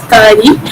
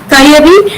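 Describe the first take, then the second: First: Kari with ya dropped and a long a; dialect form. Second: Kayari with the middle ya sounded; Kayari, no syllable dropped; full standard form. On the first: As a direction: stretch the a in kari. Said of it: "vowel a is lengthened here". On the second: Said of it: "second syllable ear gets deleted". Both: Shown as a demonstration.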